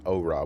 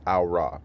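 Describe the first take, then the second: First: "oh ra" opening on a long "oh"; deliberate, lower "oh ra" with an "oh" start; habitual mispronunciation. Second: "au ra" opening on an "ow" sound; deliberate, lower "au ra" with an "ow" start; intended pronunciation. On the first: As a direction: say "oh ra" slowly, first syllable like "oh". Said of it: "my brain wants to say". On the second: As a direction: say "au ra" slowly, first syllable like "ow". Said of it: "I'm trying to say". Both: Shown as a demonstration.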